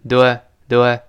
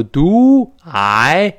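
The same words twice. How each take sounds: First: "do I" run together short and reduced; glossed-over "do I". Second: "do I" slow and loud, both vowels stretched; over-full "do I". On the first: Teacher shows the linked form, quick reduced "do I". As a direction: skim lightly over "do I" as one unit. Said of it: "都是一带而过". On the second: Teacher shows what not to say, exaggerated "do I". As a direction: drag out "do I" as two full words. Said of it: "不要读do I". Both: Shown as a demonstration.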